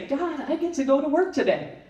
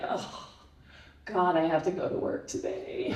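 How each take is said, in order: First: It sounds cheerful and grateful. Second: It sounds gloomy and reluctant.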